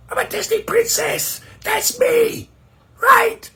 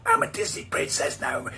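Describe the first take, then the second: First: Much higher and louder, a brash princess claim; shouted princess. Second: High, breathy whisper of the princess voice. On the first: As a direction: bellow it like a diva. Princess voice after threat. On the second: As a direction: hiss it like a secret threat. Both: Acted.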